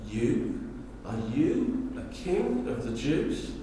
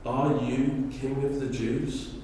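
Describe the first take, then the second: First: It is said with mocking disdain. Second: It is said in a plain, neutral tone.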